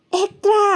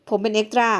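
First: Higher, louder, mocking disbelief; haughty actress sneering at the extra's job; scornful echo. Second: Said in the usual way. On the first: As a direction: repeat เอ็กตร้า sharp and high as if it were a joke. Actress scornfully echoes his job.

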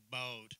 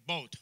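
First: "boat" lower and drawn out in a Southern drawl. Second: "boat" said clipped, the Canadian way. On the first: Canadian preacher mimics Southern speech for the congregation, drawled. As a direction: let "boat" roll slowly, Southern style. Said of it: "down south, they say boat". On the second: Canadian preacher contrasts her own accent, clipped. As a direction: say "boat" short and tight, Canadian style. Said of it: "We say boat". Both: Shown as a demonstration.

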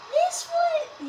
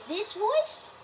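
First: Put-on high voice, held level; demo voice. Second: Put-on voice sliding upward at the end; alternative demo voice. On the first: Player asking viewers which voice they like, high held demo voice. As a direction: show off a high-pitched voice. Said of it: "do you guys like this voice?". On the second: Player asking viewers which voice they like, upward-sliding demo voice. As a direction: offer another voice, swooping up on "voice". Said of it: "You guys like this voice?". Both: Shown as a demonstration.

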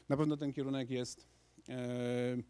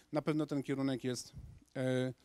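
Both takes have the same delivery.

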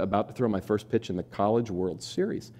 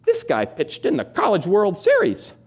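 First: Said in the usual way. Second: High, slow, clueless read-aloud; slow bewildered mother, much higher; puzzled mom reading. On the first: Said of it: "reads own story aloud". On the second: Retold or imitated. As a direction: read it like she hasn't caught on. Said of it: "my mom looks up and goes".

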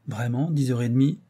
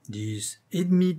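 First: Mildly abashed rising question; confused. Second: Slow, higher, insistent correction. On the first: Lover questions the comedienne about the hour, confused. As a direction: check it with a touch of confusion. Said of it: "reprit Saint-Renaud confus". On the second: Comedienne corrects her lover on the hour, insistent. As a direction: spell it out to him insistently. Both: A narrator's reading.

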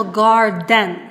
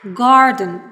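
First: "garden" with a full "den" in the second syllable; wrong full-vowel pronunciation. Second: "garden" with a reduced schwa in the second syllable; correct schwa pronunciation. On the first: Teacher warns learners what not to say: "garden" with full e. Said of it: "Це буде неправильно". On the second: Teacher models for learners the correct "garden" with schwa ending. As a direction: say "garden" as GAR-dun, weak unstressed ending. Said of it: "Ми маємо сказати". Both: Shown as a demonstration.

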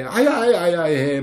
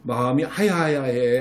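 First: Put-on slow, babyish ouch ouch; hurt baby talk. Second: Said in the usual way. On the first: Shown as a demonstration. Mom telling her child her heart hurts, slow baby talk. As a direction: stretch it out like a hurt mom to a toddler. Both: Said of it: "막 이렇게 해서".

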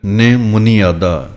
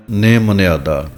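First: ਨੇ ਮੁਨਿਆਦਾ slowly, long stressed first syllable, then "muni-aadaa"; correct long vowel. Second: ਨਿਮੁਨਿਆਦਾ slowly with "ne-mu-ne" vowels, e in place of i; common misreading. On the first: Teacher modelling correct reading, ਨੇ ਮੁਨਿਆਦਾ as long "nee, muni-aadaa". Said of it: "ਬਿਹਾਰੀ ਦੀ ਆਵਾਜ਼ ਜ਼ਿਆਦਾ ਦੇ ਕੇ ਬੋਲਣਾ ਹੈ". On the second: Teacher quoting how many misread it, ਨਿਮੁਨਿਆਦਾ said "nemune-aadaa". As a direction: say ਨਿਮੁਨਿਆਦਾ as "ne-mu-ne-aa-daa". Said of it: "ਇਹਨੂੰ ਕਈ ਪੜ੍ਹ ਦਿੰਦੇ ਹਨ". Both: Shown as a demonstration.

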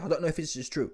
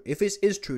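First: Said in the usual way. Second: IS punched higher than the rest; stress on IS. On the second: Real, not acted. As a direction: lean hard on "is" to mark the condition. Repeats it, leaning on "is.

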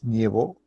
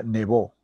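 First: "nievó" with IE in the first syllable, rising; added IE glide. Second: "nevó" with a single E, falling at the end; glide dropped. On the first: Teacher citing the wrong form, "nievó" with IE. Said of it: "el encuentro vocálico". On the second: Teacher correcting the verb, "nevó" without the I. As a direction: keep a pure E in "nevó". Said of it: "más bien desaparece". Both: Shown as a demonstration.

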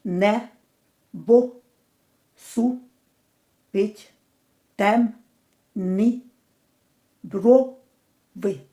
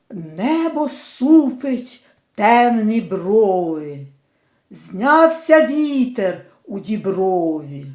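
First: Не, бо, су, пить, тем, ни, бро, ви, each syllable said alone with a pause; split into syllables. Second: Slow, measured verse recitation; poem reading. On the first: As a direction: chop "Небо супить темні брови" into separate syllables with pauses. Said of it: "Поділимо на склади". (по складах, з паузами між кожним складом) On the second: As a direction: read the lines as a poem, unhurried. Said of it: "Поділимо на склади перший рядок цього вірша". (повільне декламування вірша) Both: Shown as a demonstration.

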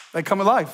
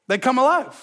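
First: Said in the usual way. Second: They come alive, lifted with emphasis; emphatic repeat. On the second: Shown as a demonstration. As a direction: hammer the promise home. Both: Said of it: "repeated for emphasis".

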